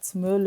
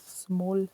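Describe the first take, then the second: First: The word has a Swiss-sounding rounded vowel. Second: The word has a standard English vowel. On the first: "That sounded very Swiss" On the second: "instead of small"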